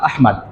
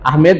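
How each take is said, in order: First: The second vowel is an open 'a' sound. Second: The second vowel is an 'e' sound. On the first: The speaker calls it right. "মিম দাল জবর মাদ" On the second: The speaker calls it wrong. "আহমেদ ভুল উচ্চারণ"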